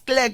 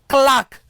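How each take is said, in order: First: The vowel is not the long 'ar' sound. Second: The vowel is the long 'ar' sound. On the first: The speaker calls it wrong. "it's actually very, very wrong" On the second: The speaker calls it right. "The correct thing is what?"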